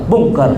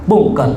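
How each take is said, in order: Both takes have the same delivery.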